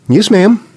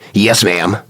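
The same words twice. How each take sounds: First: Said in a pleasant, respectful tone. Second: Said in a sarcastic, disrespectful tone. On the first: The speaker is showing respect. The speaker calls it right. "well, that's okay" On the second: The speaker is showing disrespect. The speaker calls it wrong. "That's a bad attitude"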